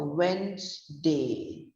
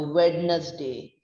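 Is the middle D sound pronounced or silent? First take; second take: silent; pronounced. First: The middle D sound is silent. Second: The middle D sound is pronounced. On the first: The speaker calls it right. "It's pronounced as a Wednesday. The spelling is W E N Z D A Y" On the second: The speaker calls it wrong. "We don't say it as a Wednesday"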